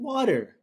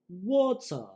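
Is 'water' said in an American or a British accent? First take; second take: American; British. First: It is said in an American accent. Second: It is said in a British accent. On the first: The speaker calls it right. "Just say fucking water" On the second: The speaker calls it wrong. "they never enunciate the entire word"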